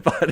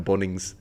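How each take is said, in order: First: Said in the usual way. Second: "Bunnings" with a rounded first vowel, like "Bonnings"; Irish-style Bunnings. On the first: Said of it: "instead of Bunnings". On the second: Retold or imitated. Confessing the accidental slip, "Bunnings" said as "Bonnings". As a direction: say "Bunnings" as an Irishman would, "BAWN-ings". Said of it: "accidentally slipped out of Bunnings".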